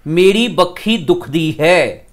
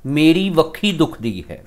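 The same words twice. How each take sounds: First: Slow, with "बखी" said with a doubled b sound: bakkhi; teacher shows the colloquial "बखी", leaning on the kh; spoken form. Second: Teacher gives the proper "वखी" with a clear v; written form. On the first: Teacher to students, showing how people say "बखी" aloud. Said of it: "बोलदे आपां इस तरह". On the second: Teacher to students, reading out the written "वखी". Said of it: "पर लिखते आपां होर तरीके नाल हां". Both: Shown as a demonstration.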